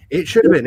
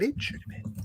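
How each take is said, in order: First: "It should have been" said louder and firm, stress on "should"; emphatic repeat. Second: Breathless whisper aside. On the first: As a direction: punch "should" out loud. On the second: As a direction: drop to a whisper on "but it should have been". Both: Real, not acted. Whispered aside, then repeated aloud.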